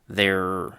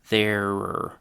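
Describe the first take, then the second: First: The word is said quickly at normal speed. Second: The word is said slowly and drawn out. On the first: "Now normal speed again" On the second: "Let me say that pronunciation again, but slower"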